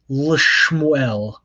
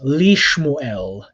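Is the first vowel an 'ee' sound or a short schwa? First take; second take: schwa; ee. First: The first vowel is a short schwa. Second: The first vowel is a clear 'ee' sound. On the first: The speaker calls it wrong. "Doesn't it sound nasty when you pronounce it that way?" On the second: The speaker calls it right. "the shva on the lamed becomes a herek"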